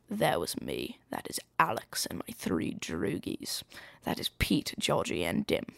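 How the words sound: It is read in a put-on character accent.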